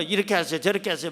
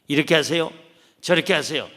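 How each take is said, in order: First: Offhand pastor advice. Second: Louder, lower, instructing tone; bossy counselor lecturing. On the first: 다른 목사가 부인에게 대충 지시하는 가벼운 말투. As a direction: toss off advice without really listening. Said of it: "막 할 텐데". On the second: 상담자가 내담자에게 훈계하며 지시하는 말투. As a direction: tell them what to do like a know-it-all adviser. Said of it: "내가 어떤 코칭을 하는 게 아니에요". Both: Retold or imitated.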